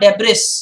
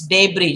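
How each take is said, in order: First: An S sound is pronounced in the word. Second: The S sound is silent in the word. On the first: The speaker calls it wrong. "It's not debris" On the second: The speaker calls it right. "Just please remember that S is silent there"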